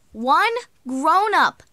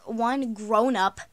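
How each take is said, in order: First: "one grown-up" punched high, loud and slow; stress on ONE. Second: Said in the usual way. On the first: Real, not acted. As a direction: hit "one" hard, then "grown-up". Repeats the phrase for emphasis.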